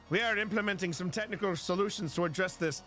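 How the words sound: It is read in an Irish accent. The speaker calls it wrong. "Maybe I shouldn't do that with it with an Irish accent"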